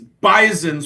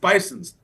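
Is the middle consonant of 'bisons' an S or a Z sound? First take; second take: Z; S. First: The middle consonant is a hard Z sound. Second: The middle consonant is a soft S sound. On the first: The speaker calls it right. "with a hard Z sound in the middle" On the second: The speaker calls it wrong. "I thought for my whole life it's bisons"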